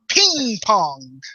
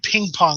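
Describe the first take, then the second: First: It is said in an imitated Chinese-style pronunciation. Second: It is said in plain English pronunciation.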